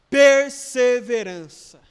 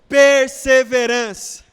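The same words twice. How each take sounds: First: The word is said at normal volume. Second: The word is said more loudly.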